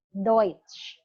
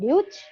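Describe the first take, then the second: First: The vowel is said as 'oi'. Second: The vowel is not said as 'oi'. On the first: The speaker calls it right. "dibaca menjadi O I" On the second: The speaker calls it wrong. "bukan Deutsch"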